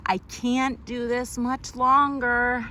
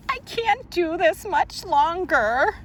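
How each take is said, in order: First: Slow, tired whimpering plea; crying. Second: High, wailing crying voice. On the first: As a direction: say it like you're about to cry. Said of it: "read that crying one again". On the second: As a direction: wail it out like you're in tears. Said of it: "read the crying one". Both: Acted.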